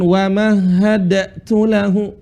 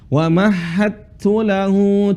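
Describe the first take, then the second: First: A separate d is pronounced before the t. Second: The d merges fully into the following t. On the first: The speaker calls it wrong. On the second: The speaker calls it right. "Seperti itu"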